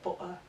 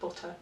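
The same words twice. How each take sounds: First: The middle t is a glottal stop. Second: The middle t is a clear t.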